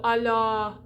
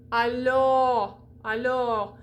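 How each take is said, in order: First: Alors ending in a flattened "ah"; unrounded O. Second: Alors ending in a rounded "aw"; lips-out open O. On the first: Teacher showing the lazy-lipped mistake, unrounded vowel. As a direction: say "alors" as "a-lah", lips not out. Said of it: "so it doesn't go alors". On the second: Teacher showing the fix, rounded open O. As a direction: say "alors" with lips well out, drawn out. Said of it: "you keep those lips out". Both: Shown as a demonstration.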